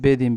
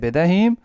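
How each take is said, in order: First: The word is shortened, with the h sound dropped. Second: The word is said in full, with the h sound. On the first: This is the everyday spoken form. "Spoken में बेदीम" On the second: This is the proper standard form. "असल में है बेदहीम"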